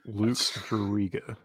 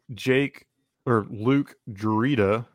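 First: The first name starts with an L sound. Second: The first name starts with a J sound. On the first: The speaker calls it right. "That's better" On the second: The speaker calls it wrong. "As opposed to Juke Jurita"

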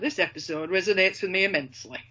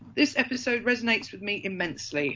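First: It is read in a broad Yorkshire accent. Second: It is read in a plain, neutral accent.

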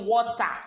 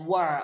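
First: It is said with a Nigerian accent. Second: It is said with an American accent.

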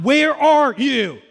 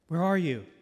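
First: It is said harshly and loudly. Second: It is said softly and gently.

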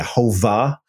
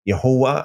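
First: The middle consonant is a V sound. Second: The middle consonant is a W sound. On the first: This is not the ancient pronunciation. The speaker calls it wrong. "They didn't say Yehovah" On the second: This is the ancient pronunciation. The speaker calls it right. "It would be Wah"

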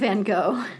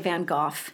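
First: The name is said in a non-British way. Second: The name is said in the British way. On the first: This is the form the household does not use. "instead of Van Gogh" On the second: This is the form the household uses. "why do we say Van Gogh"

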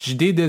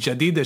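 First: The first vowel is reduced to a short schwa. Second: The first vowel is a full, long vowel. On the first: The word is said inside a flowing sentence. "ג'דידה זה זורם הרבה יותר בקלות" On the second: The word is said on its own. "במקום להגיד ג'דידה, שזה ככה אולי בתחילת משפט, או מילה שאני מציין לבד"

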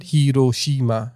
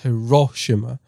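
First: All syllables get equal stress. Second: One syllable is stressed more than the others. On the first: The speaker calls it right. "Japanese always puts equal stress on all words" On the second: The speaker calls it wrong. "not Hiroshima"

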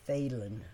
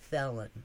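First: The name does not rhyme with Helen. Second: The name rhymes with Helen. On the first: The speaker calls it wrong. "everybody says Thelin" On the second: The speaker calls it right. "but it's Thelin, like my mother Helen"

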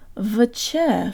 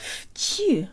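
First: The syllable begins with a voiced V sound. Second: The syllable begins with a voiceless F sound. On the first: The speaker calls it wrong. "It's very tempting to say vche for this syllable" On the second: The speaker calls it right. "don't do it. It's fchi"

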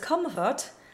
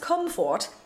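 First: The second syllable is reduced to a weak schwa. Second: The second syllable has a full, rounded O vowel. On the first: The speaker calls it right. "sang the first as comfort" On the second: The speaker calls it wrong. "went on to sing the rest as comfort, apparently thinking that he was wrong in the first place"

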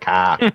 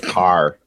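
First: The final R is dropped, Boston style. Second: The final R is clearly pronounced.

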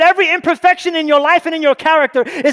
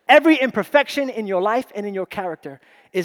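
First: The phrase is spoken at a quick pace. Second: The phrase is spoken at a slower pace. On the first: "Did I say it too fast?" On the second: "I'll slow it down"

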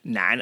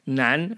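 First: The syllable has a low dipping tone. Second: The syllable has a rising tone. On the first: The speaker calls it wrong. "I always said it in the third tone" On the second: The speaker calls it right. "in the second, in the correct tone"

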